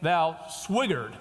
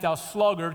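First: The word is said with a W sound. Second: The word is said with a clear L sound. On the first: "he would pronounce it" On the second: "Go to the ant, thou sluggard"

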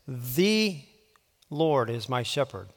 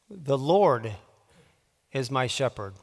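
First: The emphasis falls on the word 'the'. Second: The emphasis falls on the word 'Lord'. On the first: "putting the emphasis on a different word each time" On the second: "putting the emphasis on a different word each time"

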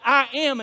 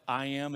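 First: It is said with strong, forceful emphasis. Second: It is said plainly, without extra force. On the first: The speaker is claiming a divine name. "He said it in an emphatic way that wasn't the normal way" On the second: The speaker is simply telling who they are. "the normal way you would say"

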